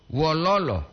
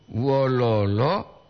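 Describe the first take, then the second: First: Wololo diucapkan dengan nada turun di akhir. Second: Wololo diucapkan pelan dengan nada naik di akhir. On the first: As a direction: jatuhkan nada pada suku terakhir wololo. (wololo dengan intonasi turun) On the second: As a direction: tarik wololo pelan lalu naikkan nadanya di ujung. (wololo dengan intonasi naik dan lambat) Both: Shown as a demonstration.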